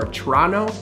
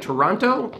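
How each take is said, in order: First: The name is said in a shortened, clipped local form. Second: Every syllable is pronounced fully as it is spelled. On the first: This is how people from the city say it. The speaker calls it right. "they say Toronto" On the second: This is how the written name suggests it sounds. The speaker calls it wrong. "When you read it, it looks like Toronto"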